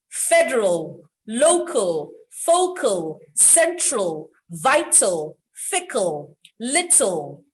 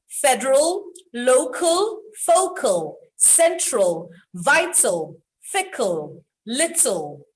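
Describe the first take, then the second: First: Federal, local, focal said with a full final L; clear dark L. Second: Federal, local, focal said again with a full final L; clear final L again. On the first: Teacher drilling final L words. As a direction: end each word on a clear L, federal, little. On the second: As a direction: repeat the words ending on a firm L. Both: Shown as a demonstration. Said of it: "I'll do that again".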